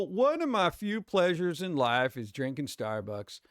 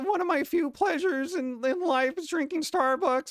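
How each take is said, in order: First: It is said in his normal own voice. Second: It is said in a put-on character voice.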